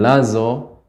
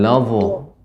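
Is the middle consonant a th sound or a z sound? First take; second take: z sound; th sound. First: The middle consonant is a plain z sound. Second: The middle consonant is a voiced th sound. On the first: The speaker calls it wrong. "Jadi bukan lazo" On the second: The speaker calls it right. "namun lavo, vo. ... seperti the"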